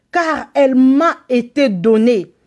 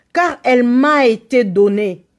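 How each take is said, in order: Both takes have the same delivery.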